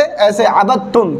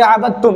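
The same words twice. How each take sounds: First: "अबद तुम" read with the doubled t, slow and low; reading demo. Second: "अबद तुम" read with the doubled t, a little low; reading demo. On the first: Teacher showing students how to read "अबद तुम". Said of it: "हम पढ़ेंगे कैसे?". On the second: Teacher repeating the reading "अबद तुम" for students. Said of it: "ऐसे पढ़ेंगे". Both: Shown as a demonstration.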